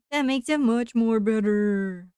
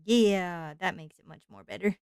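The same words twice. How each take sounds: First: Louder, laughing playful repeat. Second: Said in the usual way. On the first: Pretend.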